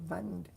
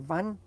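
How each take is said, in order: First: The word ends with an audible D sound. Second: The word ends without any D sound. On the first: The speaker calls it wrong. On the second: The speaker calls it right.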